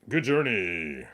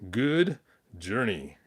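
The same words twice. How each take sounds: First: The phrase is said quickly. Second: The phrase is said slowly and clearly.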